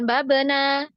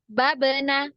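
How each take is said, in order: First: The final 'na' vowel is drawn out long. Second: The final 'na' vowel is kept short. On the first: The speaker calls it wrong. "nanya ini jangan dipanjangkan, jangan babena" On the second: The speaker calls it right. "nanya pendek ya"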